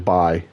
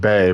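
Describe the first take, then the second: First: The name rhymes with eye. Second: The name rhymes with day. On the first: The speaker calls it right. "I think it's probably Bai" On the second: The speaker calls it wrong. "I know I just called him Bay"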